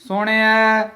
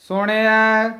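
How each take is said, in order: The two takes are said the same way.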